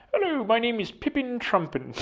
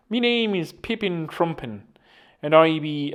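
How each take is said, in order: First: High-pitched, playful character introduction; silly character voice. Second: Put-on Irish accent. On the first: Pretend. Podcaster playing an invented man introducing himself, silly high voice. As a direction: put on a high, silly little voice. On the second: Podcaster playing an invented man introducing himself, mock Irish accent. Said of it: "an Irish accent as well".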